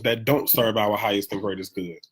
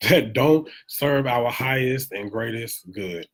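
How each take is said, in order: First: Said in the usual way. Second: Each word slowed and weighed; slow emphatic repeat. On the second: Shown as a demonstration. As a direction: repeat it slowly to drive it home.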